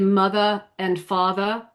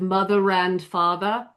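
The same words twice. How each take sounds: First: The R of mother is not linked. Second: The R of mother links into and.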